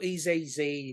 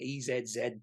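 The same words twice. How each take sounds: First: The letter Z is said the American way, 'zee'. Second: The letter Z is said the Australian way, 'zed'.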